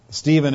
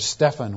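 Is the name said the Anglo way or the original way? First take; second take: Anglo; original. First: The name is said the usual English way. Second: The name is said the original, non-English way. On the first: This is the anglicized form of the name. The speaker calls it wrong. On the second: This is what the man's mother called him. The speaker calls it right.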